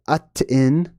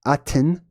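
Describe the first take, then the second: First: "Aten" in slow separate syllables, at - tuh - in; sounded out. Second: "Aten" as one word, AH-ten; joined up. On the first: Teacher reading out the glyphs, Aten syllable by syllable. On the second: Teacher blending the glyph sounds, Aten as one word. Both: Shown as a demonstration.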